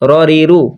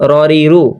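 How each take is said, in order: No difference in how they are said.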